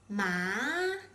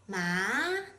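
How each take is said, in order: First: The pitch rises from middle to high. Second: The pitch rises from middle to high.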